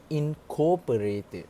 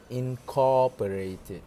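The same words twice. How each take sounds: First: "incorporated" as the mistaken take, spelled out slowly and higher; mispronunciation demo. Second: "incorporated" slowly, with a long open "cor"; model pronunciation. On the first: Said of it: "made the mistake with pronouncing it". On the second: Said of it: "instead of incorporated". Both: Shown as a demonstration.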